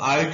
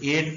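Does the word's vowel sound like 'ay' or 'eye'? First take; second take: eye; ay. First: The vowel sounds like 'eye'. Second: The vowel sounds like 'ay'. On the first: The speaker calls it wrong. "इसको आइट नहीं पढ़ते" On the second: The speaker calls it right. "एट पढ़ते हैं"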